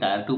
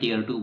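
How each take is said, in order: First: The first word rhymes with 'fire'. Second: The first word rhymes with 'fear'. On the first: "कोई टायर two बोलता है" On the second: "कोई टियर two बोलता है"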